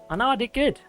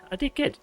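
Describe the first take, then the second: First: Mock proud. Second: Squeaky self-praise. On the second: Pretend. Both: Streamer praising himself playfully.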